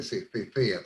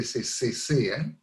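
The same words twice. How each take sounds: First: "se cecea" with th for each c; ceceo. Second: "se cecea" said with s sounds, as "se sesea"; every c in "cecea" as a plain s; seseo. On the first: Explaining the regions that lisp, th sounds throughout. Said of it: "las zonas donde se cecea". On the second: Explaining Latin American speech, s sounds throughout. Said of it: "y se dice siempre". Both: Shown as a demonstration.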